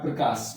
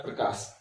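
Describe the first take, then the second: First: Said in the usual way. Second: Whispered prompt for the class; almost silent hint; soft whispered answer. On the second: Shown as a demonstration. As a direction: breathe Prakash out as a soft whisper with no voice. Teacher repeats answer, prompting class.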